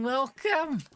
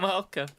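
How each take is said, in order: First: High welcome that cracks; voice cracking. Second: Said in the usual way. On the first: Real, not acted. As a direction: let the voice break up high on the word. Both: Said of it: "I don't know why I have voice cracks".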